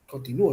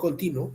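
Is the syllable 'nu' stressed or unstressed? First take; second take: stressed; unstressed. First: The syllable 'nu' carries the strongest stress. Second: The syllable 'nu' is not stressed. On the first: The speaker calls it right. "¿dónde radica la mayor fuerza de voz?" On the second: The speaker calls it wrong. "no continuo"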